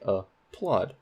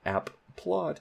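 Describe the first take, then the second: First: The p sound is said only once. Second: The p sound is doubled across the syllables. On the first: The speaker calls it right. "you say" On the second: The speaker calls it wrong. "You don't say"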